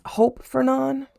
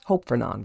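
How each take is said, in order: First: "Hope Fernon?" slow, high and questioning; unsure try. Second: "Hope Fernon." low and falling, decided; settled on it. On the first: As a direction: test "Hope Fernon?" slowly with a rising doubt. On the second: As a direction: land "Hope Fernon." flat and final. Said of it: "We're gonna go with Hope Fernon". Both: Shown as a demonstration.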